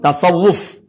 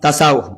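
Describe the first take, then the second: First: It is said with the original Arabic pronunciation. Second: It is said with a Kelantan dialect pronunciation. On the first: "Sebutan yang betulnya ialah tasawufun" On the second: "bahasa Kelantan dia jadi tasawuf"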